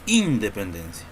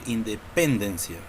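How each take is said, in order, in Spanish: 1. El acento está en la primera sílaba. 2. El acento está en la tercera sílaba. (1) "Nosotros no decimos independencia" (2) "Tampoco podemos decir independencia"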